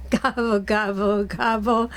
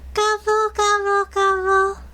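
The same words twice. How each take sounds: First: Said in the usual way. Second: High, mock turkey gobbling; playful high turkey call; turkey gobble. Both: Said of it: "that's not really what a turkey says".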